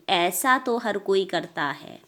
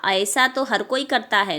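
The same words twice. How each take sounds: First: "ऐसा" with one open ai, as aisa; correct single vowel. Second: "ऐसा" begun as a-e-sa; wrong split vowel. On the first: Teacher correcting pupils, "ऐसा" with one vowel. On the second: Teacher showing the mistake, "ऐसा" as a-esa. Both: Shown as a demonstration. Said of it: "नहीं".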